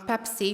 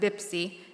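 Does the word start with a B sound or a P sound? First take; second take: P sound; B sound. First: The word starts with a P sound. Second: The word starts with a B sound.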